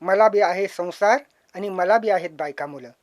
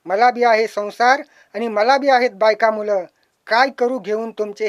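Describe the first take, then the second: First: Said in the usual way. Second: Louder recited plea. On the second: Acted. Scrap dealer pleading with the poet, louder. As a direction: push the words out louder.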